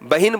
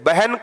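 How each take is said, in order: First: An i vowel follows the h sound. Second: There is no vowel after the h sound. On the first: The speaker calls it wrong. "बहिन बोल देते हो" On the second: The speaker calls it right. "बहन को"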